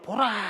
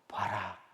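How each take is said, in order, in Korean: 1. 큰 소리로 외치는 말입니다. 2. 낮은 목소리로 속삭이는 말입니다. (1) "다 들리는 소리로 보라 이렇게 외친" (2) "속삭이듯이 낮은 톤으로"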